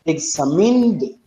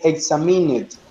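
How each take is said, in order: First: The -ed ending is joined straight onto the word. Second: The -ed ending is said as its own syllable. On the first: The speaker calls it right. "you say examined" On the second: The speaker calls it wrong. "you don't don't say examined"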